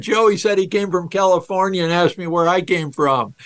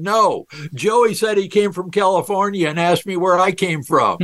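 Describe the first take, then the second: First: Said in the usual way. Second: Put-on boy's excited call, pitched a bit higher; a hint of a child blurting out; mild mock shout. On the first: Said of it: "He would have then said". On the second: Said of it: "And he shouts out".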